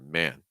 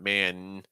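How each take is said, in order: First: It is said lower and less nasal. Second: It is said high and very nasal. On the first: The speaker calls it right. "a little bit lower" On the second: The speaker calls it wrong. "It's really nasally"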